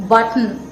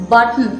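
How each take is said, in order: Both takes have the same delivery.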